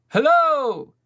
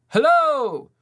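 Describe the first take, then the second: Both takes have the same delivery.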